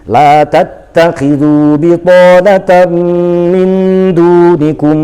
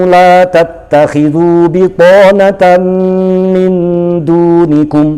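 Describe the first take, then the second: The two takes are said the same way.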